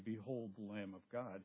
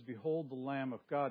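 First: It is said calmly at normal volume. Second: It is said loudly, almost shouted. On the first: A plain statement without urgency. The speaker calls it wrong. "He didn't just say" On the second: A bold, forceful proclamation. The speaker calls it right. "He yelled it"

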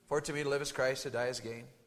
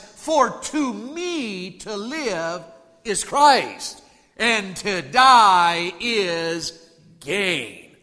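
First: It is said plainly, without much feeling. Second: It is said with strong, preaching feeling. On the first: "you can say a verse" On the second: "say it with a little feeling. Put some preach into it"

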